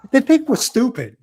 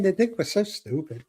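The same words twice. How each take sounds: First: Raised, exasperated outburst; loud exasperation. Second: Said in the usual way. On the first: Real, not acted. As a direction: blurt it out, higher and louder. Venting about being treated stupid.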